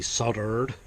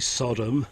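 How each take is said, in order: First: It is said with an American pronunciation. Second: It is said with the speaker's non-American pronunciation.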